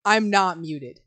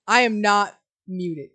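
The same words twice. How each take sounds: First: Said in the usual way. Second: "am" stressed, words slowed; insist, "I am not muted". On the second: Real, not acted.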